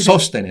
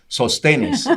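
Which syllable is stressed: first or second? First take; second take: first; second. First: The stress is on the first syllable. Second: The stress is on the second syllable. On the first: "Biblias que dice Sóstenes" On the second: "no le ponen la tilde y dice sostenes"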